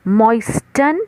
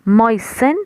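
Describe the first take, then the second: First: The t in the middle is pronounced. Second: The t in the middle is silent. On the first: This is the Indian way of saying it. "moisten is Indian pronunciation" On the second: This is the British way of saying it. "moisten is British pronunciation. T silent है"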